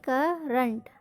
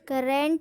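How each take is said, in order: First: The second vowel sounds like a neutral 'uh'. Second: The second vowel sounds like a full 'eh'. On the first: The speaker calls it right. "ई एन टी को हम क्या पढ़ेंगे" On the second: The speaker calls it wrong. "करेंट नहीं पढ़ेंगे"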